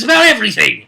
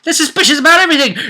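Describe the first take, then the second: First: Quick, slightly raised delivery; brisk narrator stress; fast emphatic. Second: Much higher, faster squeaky take; comic high-pitched echo; high fast repeat. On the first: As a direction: rattle it off with emphasis. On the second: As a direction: squeak it out in a rush. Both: Shown as a demonstration. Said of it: "suspicious with him".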